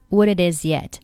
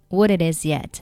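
No difference in how they are said.

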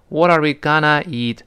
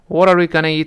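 First: The word 'gonna' is said slowly and drawn out. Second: The word 'gonna' is said quickly and lightly. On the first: The speaker calls it wrong. "不能读成What are we gonna eat，这好别扭啊" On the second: The speaker calls it right. "gonna 呢千万不能读得慢"

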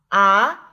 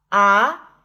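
No difference in how they are said.

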